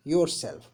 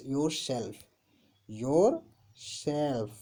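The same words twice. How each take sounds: First: Said in the usual way. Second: "yourself" drawn out with a gap after "your"; split in two. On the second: Shown as a demonstration. Teacher spelling out the pronoun for students, split in two. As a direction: say "yourself" slowly, "your", pause, "self". Teacher repeats word in parts.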